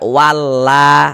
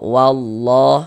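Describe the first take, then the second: First: The L sound is light and thin. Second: The L sound is heavy and thick. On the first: The speaker calls it wrong. "jangan dibaca walla" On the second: The speaker calls it right. "kita baca tabkhim, kita baca tebal"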